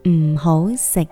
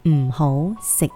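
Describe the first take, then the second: Both takes have the same delivery.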